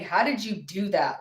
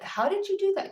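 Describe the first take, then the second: First: It sounds dismissive and unimpressed. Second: It sounds genuinely amazed and impressed.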